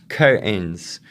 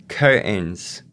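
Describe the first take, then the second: The two takes are said the same way.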